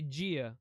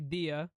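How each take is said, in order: First: The word is said the Brazilian Portuguese way. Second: The word is said the Spanish way. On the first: "we say gia" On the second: "You guys say dia"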